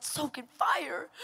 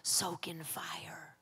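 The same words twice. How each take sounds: First: Slow, mock-tearful echo; incredulous whine. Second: Slow, hushed whisper; God's whispered voice. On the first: Tired believer repeating God's instruction back, whining. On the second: Retold or imitated. God speaking through the noise at night, whispered. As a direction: breathe it out softly and slowly. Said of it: "God's voice was able to finally penetrate".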